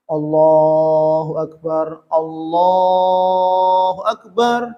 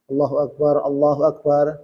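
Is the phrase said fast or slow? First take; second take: slow; fast. First: The phrase is said slowly and drawn out. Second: The phrase is said quickly and briefly. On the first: It is the call to prayer, which should be unhurried. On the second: It is the call to start prayer, which should be prompt.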